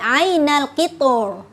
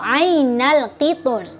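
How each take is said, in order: First: The r is said heavy and full. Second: The r is said light and thin. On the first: "boleh dibaca tafhim" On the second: "atau dibaca tarkik"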